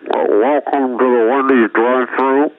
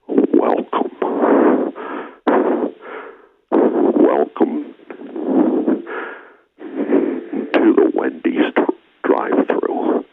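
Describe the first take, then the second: First: It is said imitating the otherworldly voice. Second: It is said in his own normal voice.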